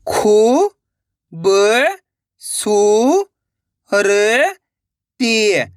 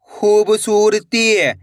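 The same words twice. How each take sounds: First: Each syllable held long, then a pause. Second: Slow, connected reading of one word; blended word. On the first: Teacher showing how to read, one syllable at a time. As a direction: break the word into separate stretched syllables. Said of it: "एक एक अक्षर का उच्चारण करके". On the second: Teacher reading the joined word to learners, slowly blended. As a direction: run the syllables together, unhurried. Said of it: "इनको आपस में लाकर पढ़ना है". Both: Shown as a demonstration.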